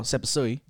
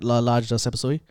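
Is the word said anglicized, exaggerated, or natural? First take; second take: anglicized; exaggerated. First: It is said in a flat, anglicized pronunciation. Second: It is said with an overdone, exaggerated accent. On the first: The speaker makes no effort. "you're not coming in saying oh sapasui... you just no effort" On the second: The speaker is overdoing it. "that's too much"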